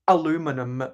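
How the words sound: It is said the American way, four syllables.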